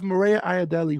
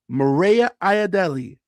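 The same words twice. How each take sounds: First: The name is said at normal speed. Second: The name is said slowly.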